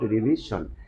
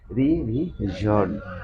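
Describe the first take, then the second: First: The -sion ending is said short. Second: The -sion ending is said long. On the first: The speaker calls it wrong. "not revision" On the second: The speaker calls it right. "the right pronunciation of this word"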